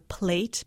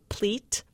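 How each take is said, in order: First: The vowel is a plain ay sound. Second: The vowel sounds closer to ee.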